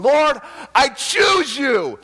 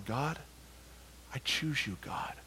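First: High, slow, full-voiced shout to God; loud, ecstatic scream of devotion; screamed declaration. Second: Very soft, low prayer; quiet, yielded prayer; hushed surrender. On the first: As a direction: cry it out with all you have, drawing out each word. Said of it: "then I started screaming". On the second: Retold or imitated. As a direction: murmur it humbly, face to the floor. Prostrate, humble surrender in story.

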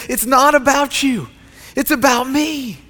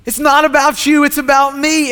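First: "not" and "about" dwelt on slowly and firmly; slow, weighty God voice. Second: "not" and "about" hit harder and louder the second time; louder repeat. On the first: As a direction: lay "It's not about you" down slowly, each word heavy. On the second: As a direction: proclaim it louder, building the climax. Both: Shown as a demonstration. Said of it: "He looks at all of us and he says".

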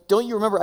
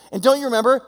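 First: "Don't you remember?" pitched higher with a falling end; exasperated teacher asking a pointed question; a hint of an impatient Jesus; Jesus chiding. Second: "And don't you remember?" higher and louder, rising at the end; mock-exasperated Jesus pressing the point. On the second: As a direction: push the question harder, almost pleading. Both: Jesus scolding his disciples.

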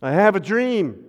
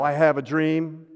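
First: Ringing oratorical quote, raised a little; quoting King's dream. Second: Said in the usual way. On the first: Retold or imitated. Pastor quoting the famous dream speech to the congregation, ringing. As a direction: lift it like the famous speech, louder. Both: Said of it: "How about Martin Luther King?".

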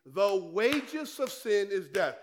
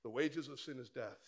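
First: Slow, every word weighed; a preacher pressing scripture home; slow emphatic quote. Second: Softer, dropped low and hushed; quiet restatement. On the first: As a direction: lay out "The wages of sin is death" slowly and firmly. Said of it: "The Bible says in Romans six twenty-three". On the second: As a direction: let "The wages of sin is death" fall quietly. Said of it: "repeated scripture, quieter". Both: Real, not acted.

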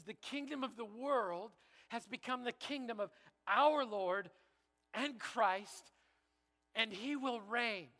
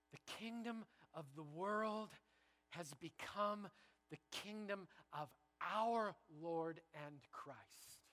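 First: Louder, higher, proclaiming the verse; bold proclamation. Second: Slow, hushed, reverent reading of scripture; slow solemn reading. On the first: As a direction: announce it like a victory, slowing on he will reign. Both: Shown as a demonstration. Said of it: "Let me read it again".

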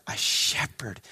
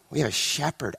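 First: A shepherd whispered, much softer. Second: Said in the usual way. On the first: Real, not acted. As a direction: breathe a shepherd as a secret. Repeated phrase whispered.

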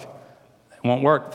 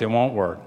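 First: "It won't work" drawn out very slowly, each word weighted; slow emphatic warning. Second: Said in the usual way. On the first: Shown as a demonstration. Preacher warning the folks, very slow and heavy.

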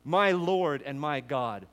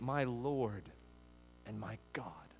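First: Slow and louder, each word weighted; fervent slow proclamation. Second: Softly, the second half much softer; hushed confession. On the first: Acted. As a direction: proclaim it slowly as a declaration of faith. Repeats confession as response of faith. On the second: Retold or imitated. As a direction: murmur it like a quiet awed confession. Quoting Thomas's confession.

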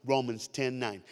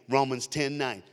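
The two takes are said the same way.

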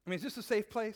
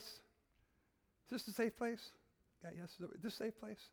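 First: Said in the usual way. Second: Drawn-out, softer question; slow right down and ask gently; slow, soft asking for trust; slow soft repeat. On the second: Shown as a demonstration.

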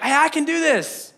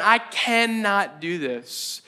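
First: High, eager can-do burst; upbeat self-belief, acted out; confident excitement. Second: Slow, drawn-out admission of defeat; heavy, deliberate resistance, acted out; despairing refusal. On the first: Acts out early confident desire. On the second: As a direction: stretch it out like someone giving up. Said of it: "that's that moment of going".

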